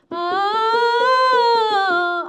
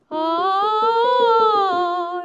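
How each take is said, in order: First: The sound resonates at the front of the mouth. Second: The sound resonates low in the mouth. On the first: "앞으로 쓸 수도 있고" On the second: "이렇게 소리를 아래로 쓸 수도 있고요"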